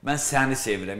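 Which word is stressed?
səni. The stress falls on the word səni. It is this person, not others, who is loved. "ətrafımda tutaq ki, qızlar var, amma səni sevirəm"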